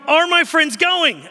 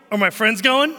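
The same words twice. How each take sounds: First: Loud, high, drawn-out question; hammed-up kid, asking slowly and loudly; exaggerated replay of a child's question; insistent child imitation. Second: Said in the usual way. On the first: Son's question, exasperatingly repeated.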